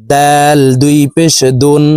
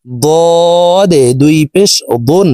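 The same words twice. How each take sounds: First: দাল and দুন with a light, thin d; thin dal. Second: Slow বদে and দুন with a heavy, full d; thick dad. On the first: Teacher contrasting dal with dad, thin d in দুন. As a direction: keep the d of দুন thin, not heavy. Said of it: "দাল হরফ পাতলাভাবে উচ্চারণ করতে হবে". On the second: Teacher contrasting dad with dal, slow thick দুন. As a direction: make the letter in বদে and দুন thick, drawn out. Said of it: "মোটা করে উচ্চারণ করতে হবে". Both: Shown as a demonstration.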